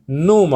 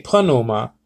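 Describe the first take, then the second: First: "pneuma" said as NOO-ma; "pneuma" starting straight on the N; silent P. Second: "pneuma" said as puh-NOO-ma; "pneuma" in three syllables, with an audible P; pronounced P. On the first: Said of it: "they give this sort of pronunciation". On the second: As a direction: sound the P before the N in "pneuma". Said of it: "now I say pneuma because the P is". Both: Shown as a demonstration.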